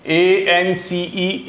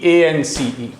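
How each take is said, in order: First: अक्षर-अक्षर धीरे बोलना, ए-एन-सी-ई; लिखते हुए बहुत धीरे स्पेलिंग बताना, एएनसीई; letters spelled out. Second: Said in the usual way. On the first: Shown as a demonstration. (बोर्ड पर लिखते हुए धीमी spelling) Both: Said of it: "बहुत इंपॉर्टेंट वाले ही लिखूंगा".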